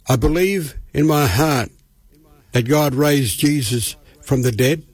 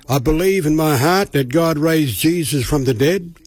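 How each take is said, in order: First: It is said at a slower pace. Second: It is said at a quicker pace.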